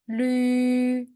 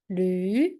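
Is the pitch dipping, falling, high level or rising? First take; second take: high level; rising. First: The pitch stays high and level. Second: The pitch rises from mid to high.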